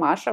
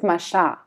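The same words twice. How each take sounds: First: The name is said the original way. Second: The name is said the French way. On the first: The speaker calls it right. "real one" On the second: The speaker calls it wrong. "when you go in France, they pronounce it Masha"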